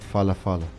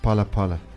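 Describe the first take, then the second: First: The word begins with an f sound. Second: The word begins with a plain p sound. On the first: The speaker calls it wrong. "Not Falafala" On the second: The speaker calls it right. "The H is silent"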